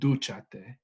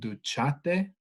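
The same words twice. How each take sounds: First: The stress is on the first syllable. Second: The stress is on the second syllable. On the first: The speaker calls it right. "but it's duchate" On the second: The speaker calls it wrong. "without that accent mark would become duchate"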